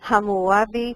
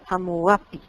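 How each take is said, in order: First: The name has neither a G nor a P sound. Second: The name has a P sound near the end. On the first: This is the Spanish pronunciation. "en español es Hammurabi" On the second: This is how it appears in other languages. "en otros idiomas aparece con P"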